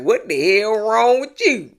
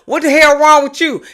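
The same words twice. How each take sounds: First: It is said in a casual, mild tone. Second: It is said in a hostile, aggressive tone.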